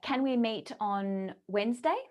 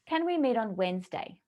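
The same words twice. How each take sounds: First: The pitch rises at the end. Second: The pitch falls at the end. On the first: The listener is genuinely invited to decide. "So this is question tonality" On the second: The listener is steered toward saying yes. "a question with a command tonality down at the end"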